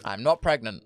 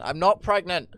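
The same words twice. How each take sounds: First: Said in the usual way. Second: "not" in "I'm not pregnant" hit higher and louder, a firm protest; emphatic denial. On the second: Real, not acted. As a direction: punch "not" hard to deny it.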